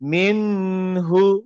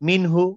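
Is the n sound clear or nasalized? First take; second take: nasalized; clear. First: The n is held with a nasal hum. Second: The n is pronounced clearly without nasal hum. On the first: The speaker calls it wrong. "কিন্তু আমি যদি পড়ি মিনহু, ভুল" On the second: The speaker calls it right. "আমি পড়বো মিনহু, ক্লিয়ার"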